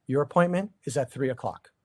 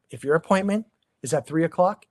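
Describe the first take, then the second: First: "appointment" falling and settled, said as a firm fact; "appointment" brought down firmly, no room for doubt; firm falling statement. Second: "appointment" rising, left hanging as the set-up; "appointment" lifted, like an open condition; rising setup. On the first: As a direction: land "appointment" with a final fall. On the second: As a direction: lift "appointment" and let it hang. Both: Shown as a demonstration.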